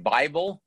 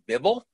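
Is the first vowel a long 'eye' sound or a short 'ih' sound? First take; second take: long; short. First: The first vowel is a long 'eye' sound. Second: The first vowel is a short 'ih' sound. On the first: "The word Bible" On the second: "became Bibble"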